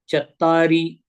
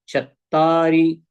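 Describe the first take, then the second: The two takes are said the same way.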